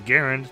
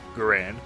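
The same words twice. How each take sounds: First: The name rhymes with errand. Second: The name does not rhyme with errand. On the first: This is how experts and acquaintances say it. The speaker calls it right. "the preferred pronunciation is Garand to rhyme with errand" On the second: This is the common way people say it. The speaker calls it wrong. "frequently pronounced Garand, the way I'm saying it"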